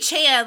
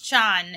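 First: It is pronounced the English way, as in 4chan. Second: It is pronounced the Japanese way. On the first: This is how people commonly say it. The speaker calls it wrong. "people say Chan, like, as far as, because like that's where, like, 4chan" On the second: This is how it is said in Japanese. The speaker calls it right. "but it's Chan in actual Japanese"

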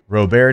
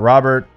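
First: The name is said the Louisiana way. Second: The name is said the general American way. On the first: This is how people from Louisiana say it. The speaker calls it right. "The way we say things" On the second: This is how people outside Louisiana say it. The speaker calls it wrong. "not Robert"

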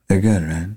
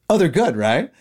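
First: It is said in a low, sultry voice. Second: It is said in an ordinary, bright voice.

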